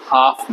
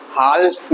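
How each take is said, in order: First: हाफ with no l before f; HALF pronounced हाफ; silent L. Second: हाल्फ with an audible l before f; HALF misread as हाल्फ; sounded silent L. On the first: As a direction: say हाफ, leaving out the l. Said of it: "हाफ बोलेंगे". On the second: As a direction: pronounce the l in हाल्फ. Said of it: "हाल्फ नहीं बोलेंगे". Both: Shown as a demonstration.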